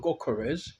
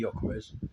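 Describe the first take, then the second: First: The name begins with a hard G sound. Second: The name begins with a Y sound. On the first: "It's a G. So it's either Gokores" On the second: "could be a silent G, and it's pronounced with the Y"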